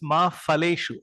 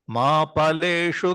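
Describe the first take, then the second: First: The word starts with an f sound. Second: The word starts with a p sound. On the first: The speaker calls it wrong. "Many people read this ma phaleshu. Fa, you pronounce this fa in Hindi" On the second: The speaker calls it right. "you have to pa, pa, pa"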